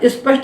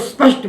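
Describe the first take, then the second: First: An extra 'i' vowel is added before 'sp'. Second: The word starts directly with 'sp', no vowel. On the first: The speaker calls it wrong. "ना स्पष्ट बोलना है" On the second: The speaker calls it right. "उसको स्पष्ट बोलना है"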